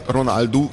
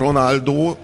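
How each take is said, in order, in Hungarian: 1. A név u hangra végződik. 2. A név o hangra végződik. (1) "a portugál szóvégi óbetűnek az úsítása" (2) "Egy egész országgal elhitették, hogy a Ronaldo"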